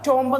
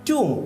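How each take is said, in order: First: It has an o vowel and a final b. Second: It has an oo vowel and no final b. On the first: The speaker calls it wrong. "ടോംബ് എന്നുമല്ല" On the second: The speaker calls it right. "ടൂം എന്നാണ് pronunciation"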